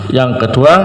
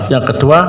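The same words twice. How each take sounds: Both takes have the same delivery.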